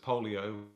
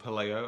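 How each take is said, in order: First: The name sounds like the word polio. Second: The name does not sound like polio. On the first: The speaker calls it wrong. "I always pronounce it as polio" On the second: The speaker calls it right. "as I discovered, is called Paleo"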